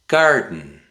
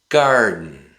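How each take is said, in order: First: The middle is cut off by a glottal stop. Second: The same.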